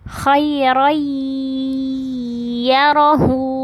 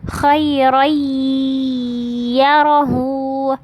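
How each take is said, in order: The two takes are said the same way.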